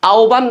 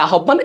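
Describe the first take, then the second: First: আহ্বান said 'a-o-ban', the h dropped; 'ob' in আহ্বান. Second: আহ্বান said 'a-hob-ban', with a sounded h; mistaken h in আহ্বান. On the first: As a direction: say আহ্বান as 'aoban', gliding into o. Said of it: "হয়ে যাবে ও ব". (আহ্বান-কে 'আওবান' উচ্চারণে বলা) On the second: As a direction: say আহ্বান as 'ahobban'. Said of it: "এই জিনিসটা তোমরা ভুল করতে পারো". (আহ্বান-কে ভুল করে 'আহোব্বান' উচ্চারণে বলা) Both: Shown as a demonstration.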